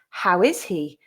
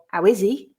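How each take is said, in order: First: The h sounds are pronounced. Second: The h sounds are dropped. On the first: This is the standard pronunciation. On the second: This is how many regional speakers in England say it.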